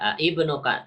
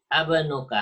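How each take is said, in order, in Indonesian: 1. Dua vokal yang terpisah terdengar di awal. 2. Satu vokal yang menyatu terdengar di awal. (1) "Tidak a ibnuka" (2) "tapi abnuka"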